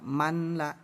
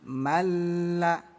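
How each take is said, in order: First: The n sound is pronounced before the l. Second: The n sound merges into a doubled l. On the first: The speaker calls it wrong. "Jangan dibaca manla" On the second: The speaker calls it right. "tapi malla. Nunnya kita abaikan ya"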